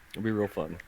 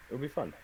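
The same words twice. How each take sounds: First: Understated irony; sarcastic. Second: Dry, quiet sarcasm, stress on "be"; wry mock cheer; sarcastic. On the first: Acted. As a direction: say "It'll be real fun" flatly with a sinking "be". GM repeats sarcastically. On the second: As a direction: say "It'll be fun" with a falling "be", softly ironic. GM sarcastic after warning.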